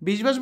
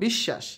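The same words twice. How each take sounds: First: A 'b' sound follows the middle consonant. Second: The middle consonant is doubled without 'b'. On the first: The speaker calls it wrong. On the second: The speaker calls it right.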